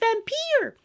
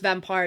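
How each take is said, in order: First: It is said in an imitated cartoon character voice. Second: It is said in the speaker's ordinary voice. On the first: "I'm hearing Lisa Simpson's voice in my head" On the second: "But it is pronounced vampire"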